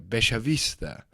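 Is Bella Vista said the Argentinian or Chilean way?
Argentinian. It is said with an Argentinian Spanish pronunciation. "an Argentinian would see that and say"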